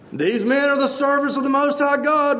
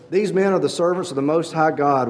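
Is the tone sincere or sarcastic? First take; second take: sarcastic; sincere. First: It is said in a sarcastic, hateful tone. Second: It is read in a plain, sincere tone.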